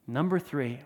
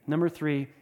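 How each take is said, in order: Both takes have the same delivery.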